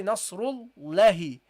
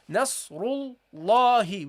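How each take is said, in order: First: "Nasrullahi" with a short, light "la"; "Nasrullahi" with no held vowel on "la"; unprolonged fatha mistake. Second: "Nasrullahi" with a long, heavy "la"; slow "Nasrullahi", vowel held on "la"; prolonged fatha. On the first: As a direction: wrongly cut the "la" short in "Nasrullahi". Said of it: "We don't say". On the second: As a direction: stretch the "la" in "Nasrullahi". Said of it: "We prolong this fatha". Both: Shown as a demonstration.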